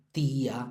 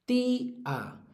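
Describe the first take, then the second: First: Said in the usual way. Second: "tía" split as TÍ-a, high held "í"; fuerza en la I. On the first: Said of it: "todas las que acaban en ía". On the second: Shown as a demonstration. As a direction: hold "tía" high on the "í", then a separate "a". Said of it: "tienen la fuerza en la penúltima". ("tía" partido, con la "í" aguda y larga)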